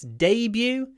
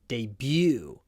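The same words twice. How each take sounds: First: The stress is on the first syllable. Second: The stress is on the second syllable. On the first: This is the British pronunciation. "in British English" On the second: This is the American pronunciation. "In American English, ... So they put the stress on the second syllable"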